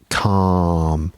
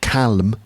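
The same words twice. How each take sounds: First: The L sound is left out of the word. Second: The L sound is pronounced in the word. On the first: The speaker calls it right. "Remember the silent L in that word" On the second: The speaker calls it wrong. "Not calm, no"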